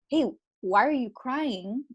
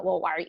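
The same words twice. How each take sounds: First: Slow, gentle question; a sincere, caring take on the question; genuine caring. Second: Curt, impatient question; a hint of an impatient, judging take; dismissive. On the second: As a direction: brush the person off. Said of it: "And not obviously in a". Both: Shown as a demonstration.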